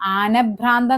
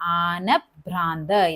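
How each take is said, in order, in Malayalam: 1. നടുവിലെ 'bh' സാധാരണ 'b' പോലെയാണ് പറയുന്നത്. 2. നടുവിലെ 'bh' പൂർണ്ണമായും ഉച്ഛ്വാസത്തോടെയാണ് പറയുന്നത്. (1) "ആനഭ്രാന്ത് എന്നല്ല" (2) "അതിങ്ങനെയാണ് ട്ടാ പറയേണ്ടത്"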